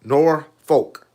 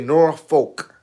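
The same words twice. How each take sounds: First: It uses the pronunciation common outside the area. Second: The same.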